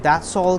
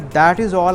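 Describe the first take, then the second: First: That and is merge into one contracted word. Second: That and is are said as separate words. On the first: The sentence feels short and easy. The speaker calls it right. "काफ़ी एक shorten form में है" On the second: The sentence feels rather long. The speaker calls it wrong. "ख़ासा तवील sentence"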